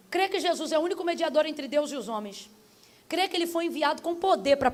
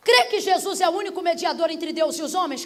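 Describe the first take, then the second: First: Measured creed question at usual volume; solemn altar call. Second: Forceful preaching question; challenging question. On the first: Preacher leading listeners to confess Jesus, solemn altar call. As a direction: put the creed to them calmly and plainly. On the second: Preacher quizzing the doubter on belief, challenging question. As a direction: put the creed to them as a challenge. Rapid challenge before the altar call. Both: Real, not acted.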